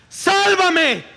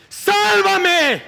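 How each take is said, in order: First: High, loud cry for help; desperate shout. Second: High, loud pleading cry; desperate shout. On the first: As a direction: yell it like a man sinking in the waves. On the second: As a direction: scream it again as the water takes you. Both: Acted. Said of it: "empezó a hundirse y a gritar".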